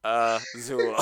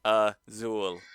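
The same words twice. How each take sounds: First: Stiff Azul said as ah-ZOO, breaking into a laugh; robotic American, laughing. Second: Stiff robotic Azul said as ah-ZOOL; robotic American. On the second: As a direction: Azul in a flat machine voice, ah-ZOOL. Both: Pretend. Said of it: "say it as American and robotic as I could".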